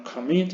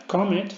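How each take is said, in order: First: Commit stressed on the second syllable, comMIT; stress on last syllable. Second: Comet stressed on the first syllable, COmet; wrong stress. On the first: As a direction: land the weight on the end of commit, com-MIT. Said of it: "el golpe de voces en la última sílaba". (commit con el golpe de voz en la última sílaba) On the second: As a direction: say comet with the weight up front, COM-et. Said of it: "No es comet, sino commit". (comet con acento en la primera sílaba) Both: Shown as a demonstration.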